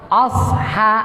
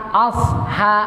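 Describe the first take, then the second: Both takes have the same delivery.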